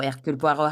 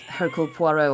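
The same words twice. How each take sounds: First: "Hercule Poirot" said the French way; French-style "Hercule Poirot", with a silent H; alternative pronunciation. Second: "Hercule Poirot" said the English way; anglicised "Hercule Poirot", with the H sounded; one pronunciation variant. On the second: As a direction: say "Hercule Poirot" as a British speaker would. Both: Shown as a demonstration. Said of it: "however you want to say it".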